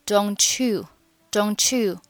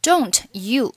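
First: "don't you" run together, t melting into a ch sound; linked pronunciation. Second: Said in the usual way. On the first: Shown as a demonstration. Teacher showing learners linking, "don't you" blended together. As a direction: join "don't you" as one word. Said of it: "Don't you连读". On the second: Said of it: "连读".

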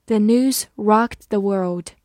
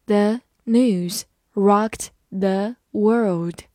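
First: Said in the usual way. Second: Very slow, every word on its own; slow reading. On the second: Shown as a demonstration. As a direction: take it one word at a time. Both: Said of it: "慢慢来读".

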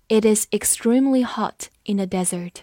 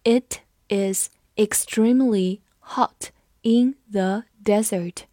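First: Said in the usual way. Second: Measured, one word at a time; slow read-along. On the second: Shown as a demonstration. Teacher leads students through the sentence, slow and separated. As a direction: read slowly with a gap after each word. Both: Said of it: "我们慢读一遍".

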